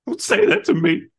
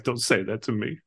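First: Retold anguished outburst, high and loud; super emotional. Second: Said in the usual way. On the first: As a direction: act out a distraught plea, pitched way up. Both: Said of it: "he just gets super emotional".

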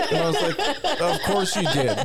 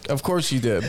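First: Laughing. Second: Said in the usual way. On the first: Retold or imitated. Repeats reply to mom.

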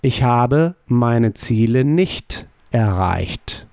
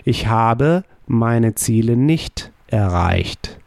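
First: Slow, careful German negation; slow model answer. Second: Slow, deliberate repeat of the sentence. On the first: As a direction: deliver it slowly as a model. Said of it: "How would you say". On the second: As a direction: repeat it slowly to drive it home. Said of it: "we use haben as the auxiliary verb". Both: Shown as a demonstration.

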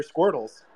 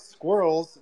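First: "squirtles" with a T sound inside squirrels. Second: Said in the usual way. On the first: Shown as a demonstration. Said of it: "they're not squirrels, they're squirtles". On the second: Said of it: "they're not squirrels".

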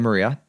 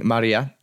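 First: Said in the usual way. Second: Maria said the Spanish way, with a clear first "ah"; Spanish pronunciation. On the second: Shown as a demonstration. Showing listeners the roommate's name, Maria in Spanish pronunciation. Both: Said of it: "you say in Spanish".

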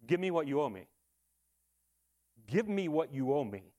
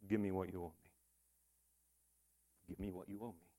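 First: Measured, firm demand at normal volume; debtor's demand. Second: Very soft, low voice, almost fading away; imagine God saying it, hushed and low; God's quiet demand. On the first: Servant to the man who owes him, demanding. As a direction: demand repayment, full voice without shouting. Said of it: "And his cry is". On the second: God to you on the last day, quietly demanding. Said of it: "Imagine if God said this to you". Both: Acted.

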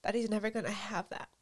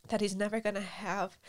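First: Crying. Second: Tearful repeat, steady; crying. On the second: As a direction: repeat it through tears. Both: Real, not acted.

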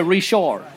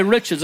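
First: "Richard" as ree-SHAR; French pronunciation. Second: "Richards" said the English way, RICH at the front; English pronunciation. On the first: Preacher correcting himself for Cajun listeners, "Richard" as French ree-SHAR. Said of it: "I gotta say Richard". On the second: Preacher showing the forbidden way, "Richards" as English RICH-erds. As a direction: say "Richards" like "riches", stress up front. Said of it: "I can't say Richards". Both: Shown as a demonstration.

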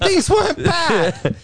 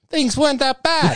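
First: High and slow, laughing through it; laughing slowly. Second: Higher, laughing through the words. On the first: Repeating the joke for his co-host, slow and laughing hard. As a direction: stretch it out while cracking up. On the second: Joking to his co-host that Trump years weren't bad, laughing. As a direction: giggle it out. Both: Real, not acted.

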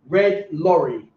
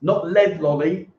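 First: "Red lorry" slow, crisp R sounds; teacher modelling "Red lorry" slowly; clear red lorry. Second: "lead lolly" with L for R, mocking; mispronounced lolly. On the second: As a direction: say "lead lolly" like a learner's slip. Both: Shown as a demonstration. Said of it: "Not lead lolly".

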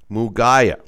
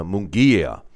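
First: Mugaya said as moo-GUY-uh, stress on the middle; first guess at the name. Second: Munguia said as moon-GEE-uh, stress on GEE; settled pronunciation. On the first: Host fumbling a fighter's name, saying Mugaya as moo-GUY-uh. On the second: Host settling on the fighter's name, Munguia as moon-GEE-uh. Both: Shown as a demonstration. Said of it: "or however they pronounced it".

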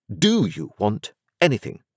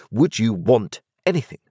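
First: "Do" hit first, rising question; stress on do. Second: "would" lifted and stressed, rising question. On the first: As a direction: press on "Do". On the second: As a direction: press on "would". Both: A narrator's reading.

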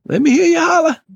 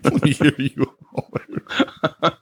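First: High, loud shout to the crowd; hype call. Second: Slow laughing repeat of let me hear you holla; laughing echo. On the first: Hyping up listeners about his book, loud and high. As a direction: fire up an imaginary audience. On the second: Cohost echoing the hype call through laughter. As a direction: echo it back while laughing. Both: Pretend.

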